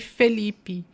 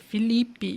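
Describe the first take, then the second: First: The first vowel sounds like 'e'. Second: The first vowel sounds like 'i'. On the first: The speaker calls it wrong. "eu até falei Felipe" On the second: The speaker calls it right. "nas nossas Bíblias é Felipe, com I"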